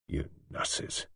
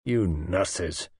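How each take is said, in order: First: Hushed, voiceless start; choked-back anger. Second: Low, voiced accusation; restrained anger. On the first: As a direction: barely get the words out. Patient swallows, begins his outburst. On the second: Repeats it, anger finding voice. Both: A narrator's reading.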